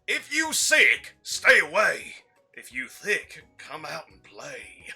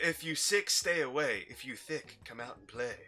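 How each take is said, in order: First: It is said in the Colonel's voice. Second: It is said in his normal voice.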